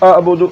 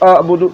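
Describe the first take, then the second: No difference in how they are said.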